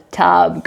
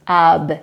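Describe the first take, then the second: First: Said in the usual way. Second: TUB split into a lone t, then ub; sounded out. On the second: Shown as a demonstration. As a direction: sound out TUB with a gap after the t. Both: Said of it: "after you sound out the word".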